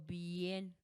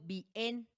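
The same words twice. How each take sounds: First: The vowels are joined in one syllable. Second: The vowels are split into two syllables. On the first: The speaker calls it right. "digo bien" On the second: The speaker calls it wrong. "Yo no digo bien"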